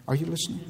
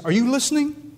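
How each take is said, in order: First: Hushed, tentative question to God; respectful. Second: High-pitched, insistent question; raised, pleading challenge; challenging God. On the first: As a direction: ask it softly and respectfully. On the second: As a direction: demand an answer from above. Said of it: "you look at him and say". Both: Acted.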